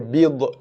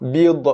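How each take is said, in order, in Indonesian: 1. Konsonan akhir berakhir dengan gema pantulan. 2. Konsonan akhir berakhir dengan gema pantulan.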